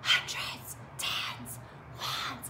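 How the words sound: The words are whispered very quietly. "we're gonna whisper like it's a secret"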